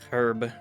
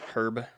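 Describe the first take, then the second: First: The word starts with a breathy h sound. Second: The word starts with no h sound. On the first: "They say herb with an H like they're coughing up a hairball" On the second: "I'm American"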